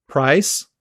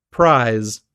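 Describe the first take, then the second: First: "Price" ending in a hissed s; voiceless final s. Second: "prize" ending in a buzzing z; voiced final z. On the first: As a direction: end "Price" on an unvoiced s, no buzz. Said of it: "they pronounce the voiceless s". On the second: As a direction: lengthen the vowel in "prize" and voice the ending. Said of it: "never devoiced at the end of words". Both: Shown as a demonstration.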